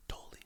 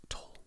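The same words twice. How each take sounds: The two takes are said the same way.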